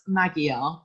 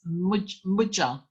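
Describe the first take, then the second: First: The middle consonant is a hard g sound. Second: The middle consonant is a j sound. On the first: The speaker calls it wrong. "I know you want to pronounce that as Magyar" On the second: The speaker calls it right. "the G and the Y are a J sound"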